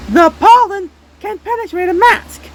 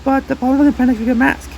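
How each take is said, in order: First: Louder repeat. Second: Said in the usual way. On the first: Shown as a demonstration.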